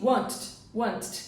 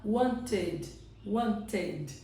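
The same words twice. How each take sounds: First: "wanted" squeezed into one syllable, want plus T; T sound only. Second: "wanted" in two syllables, ending in a sounded "ted". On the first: Teacher showing an unnatural version, "wanted" without its last vowel. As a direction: drop the vowel in "wanted", just a doubled final T. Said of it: "want com som de T". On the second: Teacher modelling the natural form, "wanted" with sounded ED. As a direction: give "wanted" a clear extra syllable, want-ed. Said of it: "ele coloca o som de E D". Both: Shown as a demonstration.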